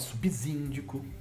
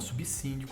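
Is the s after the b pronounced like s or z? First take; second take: z; s. First: The s after b sounds like a z. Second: The s after b sounds like an s. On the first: The speaker calls it wrong. "Ninguém fala" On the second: The speaker calls it right.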